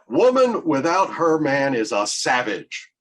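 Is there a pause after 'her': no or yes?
no. It runs on with no pause after 'her'.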